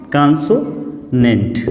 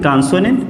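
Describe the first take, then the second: First: "consonant" said slowly, syllable by syllable; slow repeat. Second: Said in the usual way. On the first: Shown as a demonstration. Teacher repeating the term slowly for students. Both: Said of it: "twenty one को हम क्या बोलते हैं?".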